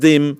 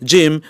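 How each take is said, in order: First: The word begins with a d sound. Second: The word begins with a j sound. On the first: The speaker calls it wrong. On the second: The speaker calls it right. "জিম উচ্চারণ করতে পারে"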